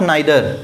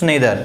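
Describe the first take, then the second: First: The first vowel sounds like 'eye'. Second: The first vowel sounds like 'ee'. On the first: The speaker calls it wrong. "It's not नाइदर" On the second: The speaker calls it right. "It's नेदर"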